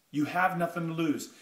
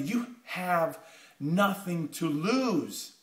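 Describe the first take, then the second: First: Said in the usual way. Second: Slow, drawn-out, each word weighed; slow emphatic. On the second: Acted. To listeners with nothing to lose, slow and deliberate. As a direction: lean on it slowly to make it sink in. First slow take of phrase.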